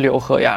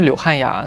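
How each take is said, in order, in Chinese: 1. 中间这个音节读 'he'。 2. 中间这个音节读 'han'。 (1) "是柳和雅" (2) "因为台湾人把和读成汉"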